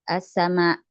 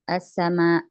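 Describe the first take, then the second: The two takes are said the same way.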